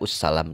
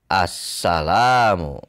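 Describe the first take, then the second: First: The word begins with an u vowel. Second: The word begins with an a vowel. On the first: The speaker calls it wrong. "tidak ussalam" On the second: The speaker calls it right. "Dibacalah assalamu"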